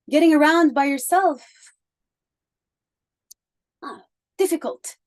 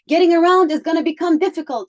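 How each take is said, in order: First: It is said hesitantly, with a filler sound. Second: It is said smoothly, without filler sounds.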